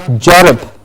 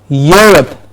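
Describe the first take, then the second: First: The word begins with a j sound. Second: The word begins with a y sound. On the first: The speaker calls it wrong. "inversed with a j" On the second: The speaker calls it right. "Europe and not Jorop"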